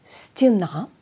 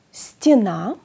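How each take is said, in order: First: "Στενά" said as stina, falling; Russian pronunciation. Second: "Στενά" said as stina, rising; Russian pronunciation. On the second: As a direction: model "Στενά" with i. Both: Shown as a demonstration. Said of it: "Το γε ακούγεται ως ι".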